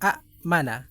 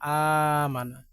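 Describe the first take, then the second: First: A glottal stop follows the first short vowel. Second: The first vowel is drawn out, with no stop. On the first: This is the original form, which is hard to read. "আগে ছিল মূলত" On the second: This is the changed form used in practice. "এটার অনুকূলে এটা নিয়ে আসলাম"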